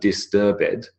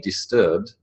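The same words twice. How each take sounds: First: The -ed ending is a separate extra syllable. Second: The -ed ending is not a separate syllable. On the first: This is the older form. "adding an extra syllable was just too annoying" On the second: This is the modern form. "We now say disturbed"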